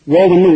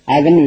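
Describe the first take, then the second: First: ஓவன்னு with a long O at the start; mispronounced oven. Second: அவன்னு with a short "uh" at the start; correct oven pronunciation. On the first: Teacher quotes a common mistake, ஓவன்னு starting with long O. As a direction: open ஓவன்னு on an "oh" sound. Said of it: "ஓவன்னு உச்சரிக்க கூடாது". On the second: Teacher models the correct word, அவன்னு starting with short "uh". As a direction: open அவன்னு on "uh", not "oh". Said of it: "அவன்னு உச்சரிக்கணும்". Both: Shown as a demonstration.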